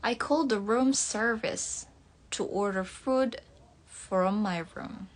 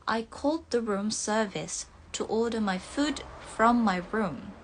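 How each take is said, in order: First: Careful American English with r's sounded; American accent. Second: Careful British English with silent r's; British accent. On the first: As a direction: read it like an American, r audible. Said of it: "logat American ya". (logat American) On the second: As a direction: read it the British way, dropping each r. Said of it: "kalau pengucapannya British". (logat British) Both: Shown as a demonstration.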